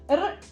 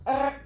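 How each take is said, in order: First: The R is rolled with the tongue tip. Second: The R is made at the back, in the throat. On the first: The speaker calls it right. "which is the correct way" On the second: The speaker calls it wrong. "which is the way that I pronounce it in the throat"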